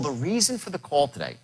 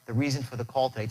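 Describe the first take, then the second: First: The voice drops low and sounds forceful. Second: The voice stays light and sounds weak. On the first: The speaker calls it right. "my tonality drops. But is there power behind it?" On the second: The speaker calls it wrong. "it's not like"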